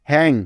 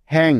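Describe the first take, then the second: No difference in how they are said.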